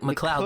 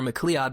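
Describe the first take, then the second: First: The name is said like McCloud. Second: The name is said unlike McCloud. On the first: The speaker calls it right. "but it's like McLeod, like like Fox McCloud" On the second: The speaker calls it wrong. "everyone says like McLeod"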